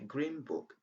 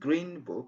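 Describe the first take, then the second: First: Green ends with an m sound. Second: Green ends with an n sound. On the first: The speaker calls it right. "It's as if we had M at the end of green" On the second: The speaker calls it wrong. "Instead of saying"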